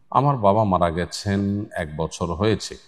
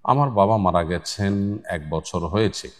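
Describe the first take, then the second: No difference in how they are said.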